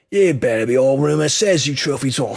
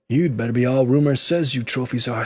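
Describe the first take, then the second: First: It is read in a raunchy British accent. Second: It is read in the speaker's plain voice.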